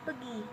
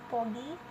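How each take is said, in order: First: The first vowel sounds like e. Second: The first vowel sounds like o. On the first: This is the Siak dialect form. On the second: This is the Perawang dialect form.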